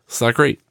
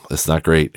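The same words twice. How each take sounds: First: Ironic high rise on great; mock high. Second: Said in the usual way. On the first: Shown as a demonstration. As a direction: say it light, pitched up, like a question.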